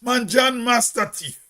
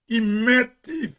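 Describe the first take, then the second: First: "master thief" as "masta teef"; Hermitage village dialect. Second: "met thief" with "met" as one short word, thief as "teef"; slow "he met teef", MET picked out; La Poterie dialect. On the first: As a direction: say "master" in full, two syllables, before "teef". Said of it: "we go say". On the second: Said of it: "But La Poterie people say". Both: Shown as a demonstration.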